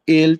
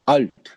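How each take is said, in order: First: The vowel is an 'eh' sound. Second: The vowel is an 'ah' sound. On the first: "एल्ट होता है I think English में" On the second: "या अल्ट German में"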